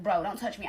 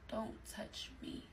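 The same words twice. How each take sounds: First: Said in the usual way. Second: Slow, barely audible whisper; very soft, slow whispered warning; hushed refusal. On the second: Retold or imitated. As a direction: re-enact a refusal under your breath, drawn out. Repeats refusal, turned away in re-enactment.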